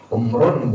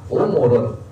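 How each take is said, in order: First: The m is followed directly by r. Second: A short u vowel follows the m. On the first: "Umrun boleh" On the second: "yang banyak dibaca adalah mimnya dhammah"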